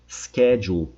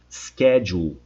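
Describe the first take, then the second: The two takes are said the same way.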